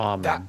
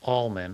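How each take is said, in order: First: The L sound is left out of the word. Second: The L sound is pronounced in the word. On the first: The speaker calls it right. "correctly pronounced as almond with a silent L" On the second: The speaker calls it wrong. "Often pronounced almond"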